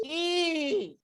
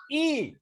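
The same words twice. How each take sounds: First: High, thinner "I" without much force; wrong way. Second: High, firm "I"; corrected way. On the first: Teacher showing pupils the wrong "I", high and weak. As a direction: show the mistaken "I", pitched up high. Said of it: "Bukan gitu". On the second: Teacher modelling the right "I" for pupils, high and firm. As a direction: show how "I" should sound, pitched up. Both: Shown as a demonstration.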